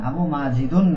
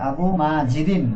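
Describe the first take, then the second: First: The second word ends with an 'un' sound. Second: The second word ends with an 'in' sound. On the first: The speaker calls it wrong. "না" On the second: The speaker calls it right. "জি, আবু মাজিদিন"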